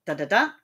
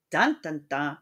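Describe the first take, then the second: First: "dun dun dun" rising to a stressed last beat; two quick weak beats, then hit the last "dun"; anapest. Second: "dun dun dun" with the first beat stressed; dactyl. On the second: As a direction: hit the first "dun", let two lighter ones follow. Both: Shown as a demonstration.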